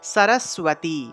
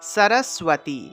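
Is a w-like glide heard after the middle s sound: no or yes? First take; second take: yes; yes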